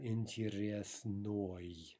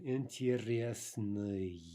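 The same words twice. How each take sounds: First: Интересной said as the wrong way; the rejected интересной; wrong form. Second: Интересный said slowly; slow correct интересный; correct form. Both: Shown as a demonstration.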